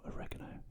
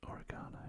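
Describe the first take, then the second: First: "oregano" stressed on the second syllable, o-REG-a-no; American pronunciation of oregano. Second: "oregano" stressed on the third syllable, o-ri-GAH-no; British pronunciation of oregano. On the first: Cook translates the herb for US viewers, "oregano" as o-REG-a-no. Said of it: "if you're in the U S". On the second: Cook names the herb for British viewers, "oregano" as o-ri-GAH-no. If you're in the U S. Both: Shown as a demonstration.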